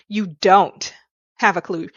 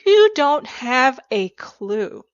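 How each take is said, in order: First: The stress falls on the word 'don't'. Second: The stress falls on the word 'have'.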